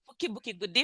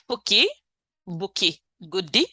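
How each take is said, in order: First: The phrase is said at a fast pace. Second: The phrase is said at a slow, careful pace.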